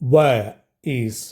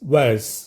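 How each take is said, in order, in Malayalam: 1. രണ്ട് വാക്കുകളും പൂർണ്ണമായും വെവ്വേറെ പറയുന്നു. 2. രണ്ട് വാക്കുകളും ചേർന്ന് ഒരു ചെറിയ അക്ഷരമായി മാറുന്നു.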